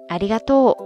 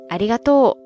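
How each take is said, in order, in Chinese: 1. 它用的是关西方言的音高模式。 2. 它用的是关西方言的音高模式。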